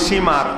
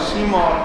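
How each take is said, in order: First: The name is said as Simar with s. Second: The name is said as two-syllable Shimr. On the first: This is the commonly used form. The speaker calls it wrong. "আর আমরা বলি সীমার" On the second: This is the name's real form. The speaker calls it right. "তার নাম হচ্ছে শিমর"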